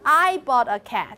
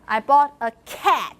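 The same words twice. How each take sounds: First: The word I is stressed. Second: The word cat is stressed. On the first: The speaker, not someone else, got it. "not you" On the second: It was a cat, not some other animal. "not a dog"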